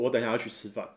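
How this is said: The voice falls at the end, sounding confident.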